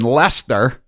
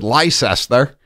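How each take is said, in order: First: Leicester is pronounced the usual way. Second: Leicester is pronounced in a mocking, imitated way.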